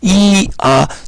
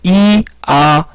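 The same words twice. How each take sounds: The two takes are said the same way.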